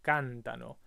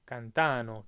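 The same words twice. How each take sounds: First: "cantano" stressed on the first syllable, CAN-ta-no; the correct "cantano" with weight on CAN; stress moved back one syllable. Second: "cantano" stressed on the middle syllable, can-TA-no; the tempting wrong "cantano", weight on TA. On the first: Teacher giving students the correct stress on "cantano". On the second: Teacher showing the learners' wrong stress on "cantano". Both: Shown as a demonstration. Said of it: "It goes back one syllable".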